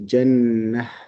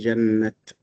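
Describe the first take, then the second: First: The word ends with an h sound. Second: The word ends with a t sound. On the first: The speaker calls it right. "You just pronounce it a ha" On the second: The speaker calls it wrong. "we do not say jannat"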